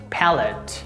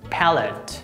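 First: It is said with American pronunciation. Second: It is said with American pronunciation.

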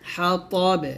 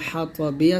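First: The word ends on the consonant 'b'. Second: The word ends with a short 'i' vowel. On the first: The reciter stops at this word. "যদি এখানে থামেন তাহলে বলতে হবে" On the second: The recitation continues past this word. "হা ত বাজের বি"

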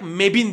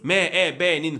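First: The abbreviation is read as one word. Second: The abbreviation is read letter by letter. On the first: The speaker calls it right. "Doğal olarak M E B'in diyoruz" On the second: The speaker calls it wrong. "M E B'nin falan değil"

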